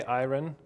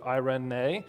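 First: "iron" as a short two-syllable EYE-ren; alternative pronunciation. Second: "eirene" as eye-reh-NAY, three syllables; proper Greek pronunciation. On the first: Preacher showing how some say it, "iron" with no final nay. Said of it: "Some say iron". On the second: Preacher showing proper Greek, "eirene" ending in a clear nay. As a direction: sound the final nay in "eirene". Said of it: "is the proper Greek pronunciation". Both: Shown as a demonstration.

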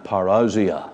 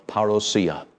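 First: "parousia" as pa-ROW-zia, ROW rhyming with cow; UK pronunciation. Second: "parousia" as parra-SEE-a, with an s; alternative pronunciation. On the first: Preacher lists three key New Testament words, UK pronunciation. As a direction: stress the OW in "parousia", with a z after it. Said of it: "as we say in the U K". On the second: Preacher offers the other form of the key word, alternative pronunciation. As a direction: say "parousia" with SEE near the end, no z. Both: Shown as a demonstration.

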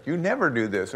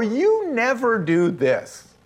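First: Said in the usual way. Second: High, slow YOU stressed; mock wife nagging "You never do this"; exasperated accusation. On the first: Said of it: "guilty of using that word". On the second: Husband mimics wife's complaint, slow high stress.

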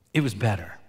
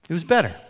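First: Said in the usual way. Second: "It was better." repeated higher and louder; emphatic repeat. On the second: Real, not acted. Pastor repeating for the congregation, emphatic and louder. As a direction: hammer home the word "better".

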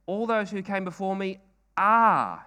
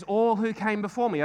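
First: "are" held long and loud at the end; stress on ARE. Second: Said in the usual way. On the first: Shown as a demonstration. Preacher stressing "are" for the congregation. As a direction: lean hard on "are" to show present tense. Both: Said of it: "He's talking in the present tense".

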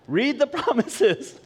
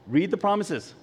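First: "promises" stretched high and slow; emphatic repeat. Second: Said in the usual way. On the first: Real, not acted. Preacher repeats the first step to the congregation, emphatic. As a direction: drive home "read the promises", higher and drawn out.

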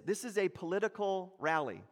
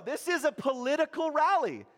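First: Said in the usual way. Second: High, loud excited declaration; excited emphasis. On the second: Shown as a demonstration. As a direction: say it as if you're shouting at the rally yourself.

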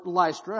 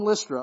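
First: "Lystra" opening like "lie"; long i pronunciation. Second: "Lystra" opening like "list"; short i pronunciation. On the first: Preacher offering the other reading of a town name, "Lystra" as LICE-truh. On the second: Preacher offering one reading of a town name, "Lystra" as LISS-truh. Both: Shown as a demonstration. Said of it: "however you say it".

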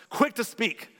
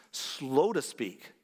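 First: Quick punched higher and louder; wrong way, loud. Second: "slow to speak" drawn out very slowly; deliberately slow. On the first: Pastor naming the wrong habit to the church, loud stress on Quick. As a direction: hit "Quick" hard as the bad habit. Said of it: "we're good at the opposite". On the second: Pastor showing the right way to the church, very slowly. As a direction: stretch "slow to speak" as if living it. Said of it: "James says we must be". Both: Shown as a demonstration.

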